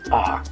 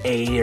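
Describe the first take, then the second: First: The word is said with an open 'ah' vowel. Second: The word is said with an English 'ay' vowel. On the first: The speaker calls it right. "the way you pronounce it in Spanish is ah" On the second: The speaker calls it wrong. "I've seen English speakers that will say a"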